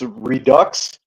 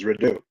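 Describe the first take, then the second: First: It is said with an English pronunciation. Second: It is said with a French pronunciation. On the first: The speaker calls it wrong. "So English, it's it's redux" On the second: The speaker calls it right. "the French pronunciation is redo"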